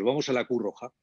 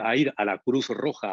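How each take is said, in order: First: Words are rushed and some sounds are swallowed. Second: Every word is pronounced fully and clearly. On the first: The speaker calls it wrong. "nos comemos las palabras" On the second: The speaker calls it right. "En vez de decir"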